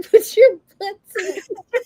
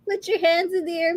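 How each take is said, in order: First: Laughing through it. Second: Said in the usual way. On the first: Retold or imitated. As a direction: giggle out the punchline, higher and louder. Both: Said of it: "Instead of, like".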